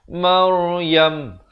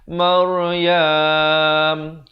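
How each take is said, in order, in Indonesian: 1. Vokal akhirnya tetap pendek. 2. Vokal akhirnya dipanjangkan. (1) "Dia kena waqaf dengan Maryam. Habis" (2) "jangan panjang... Jangan kita waqaf dengan Maryam. Salah"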